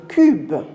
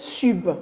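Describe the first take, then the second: First: The word begins with a K sound. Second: The word begins with an S sound. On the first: The speaker calls it right. "on va dire le cube" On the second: The speaker calls it wrong. "on ne va pas dire sub"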